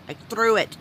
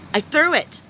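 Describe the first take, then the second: First: Said in the usual way. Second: "threw" said much higher and louder, falling; stressed threw. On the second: Real, not acted. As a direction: land hard on "threw".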